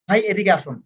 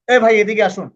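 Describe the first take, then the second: First: It is said in a gentle, pleasant tone. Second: It is said in a harsh, scolding tone.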